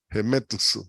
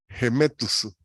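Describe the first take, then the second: No difference in how they are said.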